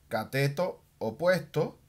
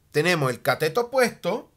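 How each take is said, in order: First: Slower and softer, dictating the words "cateto opuesto"; slow dictation. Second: Said in the usual way. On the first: Shown as a demonstration. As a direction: say "cateto opuesto" slowly as if writing it on the board. Teacher repeats term while writing. (dictando despacio y más suave "cateto opuesto")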